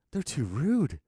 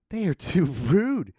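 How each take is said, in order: First: Said in the usual way. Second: "rude" drawn out, louder and slower; emphatic repeat. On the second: Acted. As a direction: stretch out each word up to "rude".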